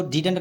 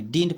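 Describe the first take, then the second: First: Didn't said in two syllables, DID-unt; wrong pronunciation. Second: Didn't said as one syllable, "deent"; contracted pronunciation. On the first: Teacher warns students off a misreading, didn't as two-syllable DID-unt. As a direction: sound a vowel before the final nt in didn't. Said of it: "इसको didn't नहीं पढ़ेंगे". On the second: Teacher shows students how to read it, didn't as one-syllable "deent". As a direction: run didn't together, no vowel before nt. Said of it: "didn't पढ़ते हैं". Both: Shown as a demonstration.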